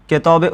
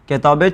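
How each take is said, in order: Both takes have the same delivery.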